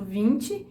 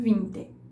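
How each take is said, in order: First: The final vowel is high and closed. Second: The final vowel is lower and more open. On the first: "o i final do vinte é mais alto" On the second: "do que o i final do vinte"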